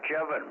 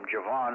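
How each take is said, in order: First: The stress is on the first syllable. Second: The stress is on the second syllable. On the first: The speaker calls it right. "He said like Kevin" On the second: The speaker calls it wrong. "put the F accent in the wrong section of it"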